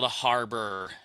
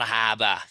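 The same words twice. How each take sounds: First: The R sounds are clearly pronounced. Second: The R is dropped, Boston style.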